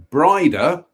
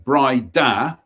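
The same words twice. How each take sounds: First: Brida said BRY-da, slowly; pronunciation demo. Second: Brida said bry-DAH, second syllable drawn out; stress on second syllable. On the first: Reader showing how the mansion's name is pronounced, Brida as BRY-da. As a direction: say Brida with a long "eye" and first syllable strong. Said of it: "pronounced Brida". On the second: Reader correcting the mansion's name, Brida stressed as bry-DAH. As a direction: land firmly on the end of Brida: bry-DAH. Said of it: "with the emphasis on the second syllable". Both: Shown as a demonstration.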